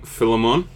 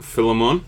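First: The name is said to sound like Pokemon. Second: The name is said to sound like Pokemon.

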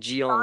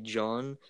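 First: The name is said with a foreign-sounding pronunciation. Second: The name is said the ordinary English way. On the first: The speaker calls it wrong. "she pronounced it like John. Like, Gion, like he was Japanese or something" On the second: The speaker calls it right. "his name was, like, John"

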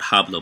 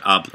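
First: The word begins with an audible H sound. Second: The word begins directly with the vowel. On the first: The speaker calls it wrong. "Not hablo" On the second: The speaker calls it right. "but hablo"

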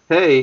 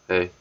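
First: The greeting sounds warm and friendly. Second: The greeting sounds dry and flat. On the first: The sender is glad to talk. "a good hay" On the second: The sender is uninterested. "it's a dry hay"

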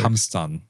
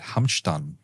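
First: It is said in a standard German accent. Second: It is said in a southern German accent. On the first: "let me try that with Hochdeutsch" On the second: "you're speaking with your southern accent"

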